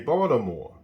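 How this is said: The t in the middle sounds like a d.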